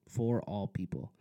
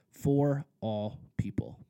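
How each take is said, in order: First: Said in the usual way. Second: "for all people" slow and louder, leaning on "for"; stress on for all people. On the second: Shown as a demonstration. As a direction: land "for all people" as the sermon's key point. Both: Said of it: "So the second point is this".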